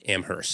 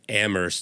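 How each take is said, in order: First: The h sound is clearly pronounced. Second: The h sound is left out. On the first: The speaker calls it wrong. "not Amherst" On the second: The speaker calls it right. "without the H"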